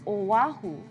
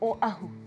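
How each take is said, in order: First: A w sound links the first two vowels. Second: A glottal stop separates the first two vowels. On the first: The speaker calls it wrong. "there's no W there, so it doesn't sound like Oahu" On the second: The speaker calls it right. "It's Oahu in the back of your throat"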